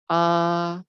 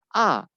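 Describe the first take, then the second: First: The pitch stays level and flat. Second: The pitch falls sharply from high to low. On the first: "untuk yang strip itu datar ya" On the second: "itu turun dia. ... Ditekan"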